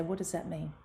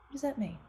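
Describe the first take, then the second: First: Said in the usual way. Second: Same question again, pitched well up; a whiny kid's puzzled protest; child pushing back on mother, high and indignant; higher pleading child. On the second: Retold or imitated. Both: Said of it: "And I used to say".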